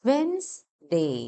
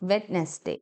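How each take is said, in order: First: The d sound is silent. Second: The d sound is pronounced. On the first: The speaker calls it right. "അങ്ങനെ വേണം pronounce ചെയ്യാൻ" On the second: The speaker calls it wrong. "പക്ഷേ ഡി എന്നുള്ള letter അവിടെ silent ആയിരിക്കണം"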